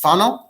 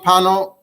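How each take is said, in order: First: The name begins with an F sound. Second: The name begins with a P sound. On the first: This is how the Italian town is really called. The speaker calls it right. "it's pronounced Fano" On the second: This is how most people say it. The speaker calls it wrong. "the Welt knows Ramami Pano"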